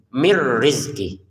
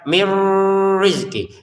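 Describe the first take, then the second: First: The n merges into r without any hum. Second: The n merges into r with a held hum. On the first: The speaker calls it right. "Bacalah dimasukkan, tapi nggak usah dengung" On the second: The speaker calls it wrong. "jangan juga dibaca mir rizki"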